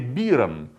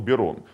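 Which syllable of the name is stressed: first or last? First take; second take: first; last. First: The stress is on the first syllable. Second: The stress is on the last syllable. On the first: This is the German way of saying the name. "по-немецки все-таки правильнее" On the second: This is the French way of saying the name. "по-французски с ударением на последний слог"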